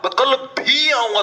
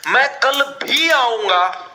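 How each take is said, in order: First: भी higher and pressed in मैं कल भी आऊंगा, slow; stress on भी. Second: Said in the usual way. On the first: Shown as a demonstration. Teacher shows students the stress, leaning on भी. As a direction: punch the word भी. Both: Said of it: "जोर डाला है भी word ने".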